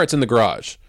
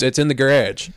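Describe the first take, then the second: First: "garage" as grahdge, broad ah; variant pronunciation. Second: "garage" as guh-RADGE; variant pronunciation. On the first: Explaining the car usage, "garage" as grahdge. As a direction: say "garage" with the ah of father. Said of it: "if you're talking about". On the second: Attempting it for the hose example, "garage" as guh-radge. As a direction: say "garage" with the a of badge. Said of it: "I can't even say it that way". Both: Shown as a demonstration.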